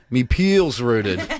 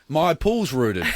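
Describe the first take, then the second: First: Pool sounds like 'peel'; 'my' sounds like 'me'. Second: Pool has its usual vowel; 'my' is said fully. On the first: The speaker calls it right. "the correct pronunciation should be" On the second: The speaker calls it wrong. "I was saying, oh, my pool's rooted, like an idiot"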